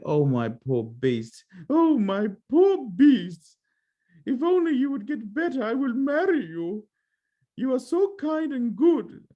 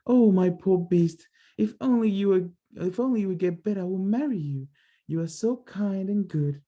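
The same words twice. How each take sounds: First: High, slow, drawn-out plea in a put-on voice; much higher and slow, pleading in grief; Beauty's grieving plea. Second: Beauty's voice redone. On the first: Kneeling by the dying Beast, high slow grieving plea. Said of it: "That's not how she sounds". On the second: Acted. Correcting Beauty's voice for the child, lightly grieving. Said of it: "She would be more like".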